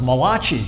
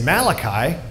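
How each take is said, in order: First: The ending rhymes with Chachi. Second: The ending does not rhyme with Chachi. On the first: The speaker calls it wrong. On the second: The speaker calls it right.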